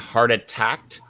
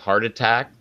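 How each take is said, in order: First: An extra t sound ends the phrase. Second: No extra t sound ends the phrase. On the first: The speaker calls it wrong. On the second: The speaker calls it right.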